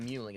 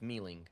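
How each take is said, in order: First: The first syllable sounds like 'moo'. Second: The first syllable sounds like 'mee'. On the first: The speaker calls it wrong. "It's not even Muling" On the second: The speaker calls it right. "It's Mealing"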